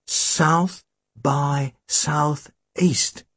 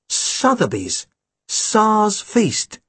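First: "South by Southeast" said slow and drawn out, each word separate; misheard phrase. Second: "Sotheby's. Tsar's Feast." read crisply as a name and title; correct headline. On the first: Tim reading the headline aloud, slow, drawn-out "South by Southeast". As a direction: read out "South by Southeast" slowly, puzzled. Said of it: "He didn't say South by Southeast". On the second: Tim reading the real headline, "Sotheby's. Tsar's Feast.". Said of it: "He said Sotheby's. Tsar's Feast". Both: Shown as a demonstration.

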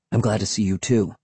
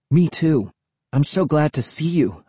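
First: Said in the usual way. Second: Higher-pitched, eager delight; glad exclamation. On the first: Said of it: "he said". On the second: A narrator's reading. Kid meeting a friend in the dark swamp, exclaiming gladly. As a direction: exclaim it with relief. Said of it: "I exclaimed".

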